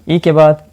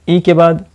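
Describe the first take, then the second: Both takes have the same delivery.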